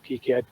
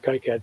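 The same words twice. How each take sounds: First: The name is said with a French pronunciation. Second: The name is said with a non-French pronunciation. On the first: The speaker calls it right. "that's the French pronunciation" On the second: The speaker calls it wrong. "started calling it KiCad before I learned that"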